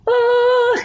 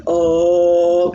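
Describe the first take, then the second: First: Very high sung oh; high-pitched demo oh. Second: Lower, fuller oh; low-pitched demo oh. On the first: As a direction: squeeze out a high oh. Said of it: "So when someone goes". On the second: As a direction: drop down to a low oh. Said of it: "trying to get lower tones". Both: Shown as a demonstration.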